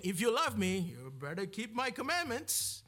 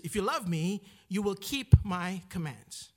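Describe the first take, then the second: First: Scolding mock warning in an Indian accent; put-on Indian accent for a misquote. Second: Said in the usual way. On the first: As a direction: slip into an Indian accent, pitch swinging up at the end. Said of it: "I went with my Indian accent there".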